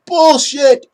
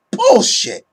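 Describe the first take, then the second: First: Louder repeat of the scoff; loud dismissive yell; emphatic shout. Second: High, loud scoff of rejection; loud dismissive yell; emphatic shout. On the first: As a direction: hammer the word home. Rejecting a fan opinion again. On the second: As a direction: shout it down like nonsense. Rejecting a fan opinion. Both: Real, not acted.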